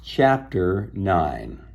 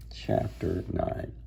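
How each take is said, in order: First: Said in the usual way. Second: Soft whispered repeat of the heading; hushed breathy chapter title. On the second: Shown as a demonstration. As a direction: whisper it the second time.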